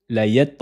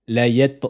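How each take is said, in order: Both takes have the same delivery.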